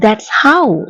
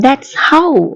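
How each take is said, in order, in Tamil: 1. 'That is' ஒரே அசையாகச் சுருங்கிச் சொல்லப்படுகிறது. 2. 'That is' ஒரே அசையாகச் சுருங்கிச் சொல்லப்படுகிறது.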